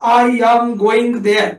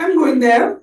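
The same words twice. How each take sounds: First: Every sound is pressed hard, final g pronounced. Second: Said lightly and quickly, final g dropped. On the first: The speaker calls it wrong. "आपली मराठी माणसं कसं म्हणतात, ... इतकं ठासून ठुसून म्हणतो" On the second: The speaker calls it right. "English माणसं ... गोइंग म्हणतात"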